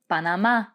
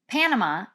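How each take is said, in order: First: The stress is on the last syllable. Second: The stress is not on the last syllable. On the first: The speaker calls it right. "the accent is there on that final A" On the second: The speaker calls it wrong. "so it's not Panama"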